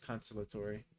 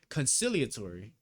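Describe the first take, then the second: First: The word sounds like consolatory, missing a syllable. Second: The word sounds like conciliatory, with all syllables. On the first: The speaker calls it wrong. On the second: The speaker calls it right.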